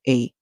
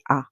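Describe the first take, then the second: First: The vowel is said with its long sound. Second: The vowel is said with its short sound. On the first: "a long song where it calls its name" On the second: "Sometimes it would make a short song"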